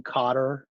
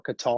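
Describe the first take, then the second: First: Qatar stressed on the first syllable, like "cutter". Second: Qatar stressed on the second syllable, ending in "tar"; Qatar as "kuh-TAR". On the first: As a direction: say Qatar as KAH-ter. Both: Shown as a demonstration. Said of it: "people pronounce it in different ways".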